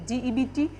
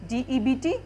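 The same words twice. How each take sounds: The two takes are said the same way.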